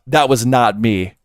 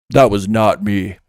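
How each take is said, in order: First: It is said in a normal voice. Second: It is said in a deeper voice.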